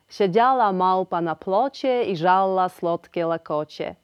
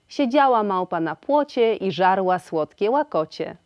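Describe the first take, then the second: First: The ł sounds like a clear dental l. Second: The ł sounds like an English w. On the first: This is an old-fashioned prewar pronunciation. The speaker calls it wrong. "Dziś już jednak tak nie mówimy. Po wojnie taka wymowa zanikła i dziś odczuwana jest jako mocno przestarzała" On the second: This is the current standard pronunciation. The speaker calls it right. "Obecnie musimy powiedzieć"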